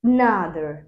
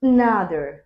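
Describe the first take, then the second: First: The first vowel is a weak, reduced schwa. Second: The first vowel is a weak, reduced schwa.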